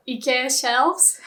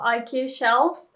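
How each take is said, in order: First: "ikea" as ee-keh-ah; corrected pronunciation. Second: "ikea" as eye-KEE-uh; English pronunciation. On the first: Teacher correcting her own slip, Japanese-style pronunciation. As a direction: say "ikea shelves" with ee at the start. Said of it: "I should be saying". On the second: Teacher slipping into her English habit, English pronunciation. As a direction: say "ikea shelves" with eye at the start. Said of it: "I would definitely say". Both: Shown as a demonstration.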